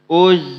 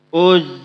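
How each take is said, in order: Both takes have the same delivery.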